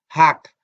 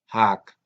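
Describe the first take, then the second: First: The word is said with a high tone. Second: The word is said with a low tone. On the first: It means stone. "piedra, tiene tono alto" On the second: It means theft. "si usted le quita el tono alto... significa robo"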